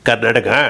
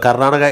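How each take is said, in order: First: The word is said with an affected, stylish accent. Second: The word is said in a plain, ordinary way. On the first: "ഇങ്ങനെ പറയുള്ളൂ" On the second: "പുള്ളി വെറുതെ പറയില്ല"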